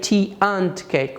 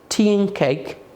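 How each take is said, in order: First: The word 'and' is pronounced in full. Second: The word 'and' is reduced and linked. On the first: The speaker calls it wrong. "We don't say tea and cake" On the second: The speaker calls it right. "we say tea and cake"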